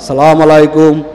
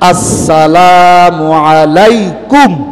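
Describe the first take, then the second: First: The opening 'as' sound is dropped. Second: The opening 'as' sound is clearly pronounced. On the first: The speaker calls it wrong. "সালামের মধ্যে ভুল কি কন?" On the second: The speaker calls it right. "হামজার উচ্চারণটা ক্লিয়ার"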